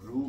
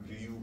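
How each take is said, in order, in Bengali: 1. স্বরধ্বনিটি সাধারণ 'oo' ধ্বনি। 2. 'oo'-র আগে একটি 'y' গ্লাইড আছে।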